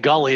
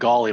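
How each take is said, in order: First: The first vowel sounds like the one in 'gull'. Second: The first vowel sounds like the one in 'golf'. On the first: "You're saying gully" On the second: "I'm saying golly"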